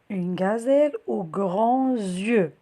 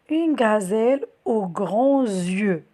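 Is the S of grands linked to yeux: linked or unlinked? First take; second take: linked; linked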